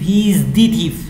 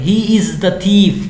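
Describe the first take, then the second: First: The word 'the' is said long, as 'thee'. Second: The word 'the' is said short, as 'thuh'. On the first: This is exactly the thief being talked about. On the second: The thief is mentioned without special emphasis.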